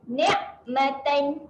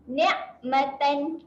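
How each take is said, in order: Both takes have the same delivery.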